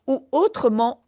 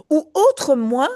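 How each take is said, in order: First: Autrement said right, nasal "-man" ending, "o-tre-man"; "autrement" corrected to "otreman"; corrected reading. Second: Autrement misread as "otremwa", ending like "moi"; "autrement" mispronounced "otremwa", a reading slip; slip of the tongue. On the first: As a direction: fix autrement to a clean nasal "-ment". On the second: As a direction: say autrement with a wrong "-mwa" ending. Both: Shown as a demonstration. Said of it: "pardon, ou autrement".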